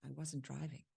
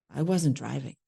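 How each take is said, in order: First: Very soft, almost under the breath; hushed denial. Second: Said in the usual way. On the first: Acted. Character answers his accusation of being there, hushed denial. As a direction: murmur the denial barely audibly. Acted denial, first of two tries.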